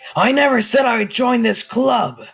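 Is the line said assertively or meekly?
assertively. It is said firmly and assertively.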